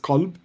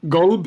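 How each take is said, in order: First: The word begins with a hard K sound. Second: The word begins with a hard G sound. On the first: This is the classical Arabic form. "the correct classical Arabic translation is is qalb with a hard K" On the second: This is the Gulf form. "Gulb is how you'd say it in the Gulf"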